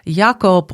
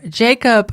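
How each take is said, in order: First: The name has a non-American, European pronunciation. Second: The name has an American English pronunciation.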